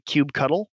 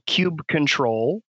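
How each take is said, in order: First: The ending is said as the word cuddle. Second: The ending is said as the word control. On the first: "I tend to say kube cuddle" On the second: "kube control is sort of the longest form"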